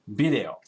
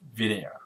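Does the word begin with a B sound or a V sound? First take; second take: B sound; V sound. First: The word begins with a B sound. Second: The word begins with a V sound. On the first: This is how untrained Japanese speakers say it. The speaker calls it wrong. "they quite often say video instead of" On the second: This is the English word. The speaker calls it right. "instead of video"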